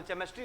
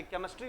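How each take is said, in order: First: "केमिस्ट्री" with a ch as in "chair"; wrong ch reading. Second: Said in the usual way. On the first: Retold or imitated. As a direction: misread "केमिस्ट्री" as che-mistry. ("केमिस्ट्री" को चेमिस्ट्री बोलें) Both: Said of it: "केमिस्ट्री होता है कि केमिस्ट्री होता है".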